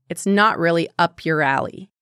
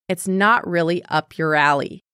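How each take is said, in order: No difference in how they are said.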